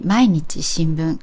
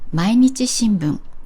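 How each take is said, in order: First: It is accented as two separate words. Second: It is accented as one single word. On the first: It means a newspaper published every day. "a listener can tell that they are two different words" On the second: It is the name of a newspaper. "a listener can tell it's one word"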